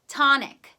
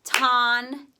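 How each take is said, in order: First: Said in the usual way. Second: "Tonic" loud, drawn-out ton, pause, then ick; syllable by syllable. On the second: Shown as a demonstration. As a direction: break "Tonic" into two beats for dictation. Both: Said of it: "Do ton and then do ick".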